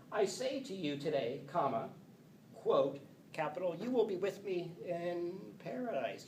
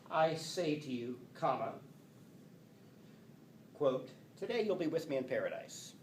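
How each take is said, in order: First: "today" joined to "I say to you", break before "you will"; pause before you will. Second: "today" starts the quote after a pause. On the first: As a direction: pause after "today", higher end. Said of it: "Or did he, did it go like this?". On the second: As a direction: break before "today". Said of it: "Did he say". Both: Shown as a demonstration.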